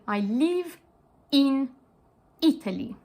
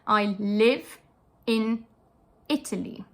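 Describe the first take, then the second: First: The I vowels sound like a tense EE. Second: The I vowels are short and lax.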